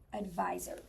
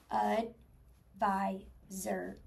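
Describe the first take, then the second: First: Said in the usual way. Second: ADVISOR very slow, ud, vi, zer, with gaps; chopped into syllables. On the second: Shown as a demonstration. Teacher counting syllables for the class, chopped apart. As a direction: break ADVISOR into three separate syllables. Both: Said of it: "Chop it out. Here we go".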